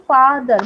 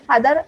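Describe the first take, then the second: First: father stretched as फा, then दर; teacher's drawn-out two-part father; split in syllables. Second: Said in the usual way. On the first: Shown as a demonstration. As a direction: break father into two clear beats. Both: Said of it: "ऐसे एक बार में ही नहीं बोल पाऊंगी".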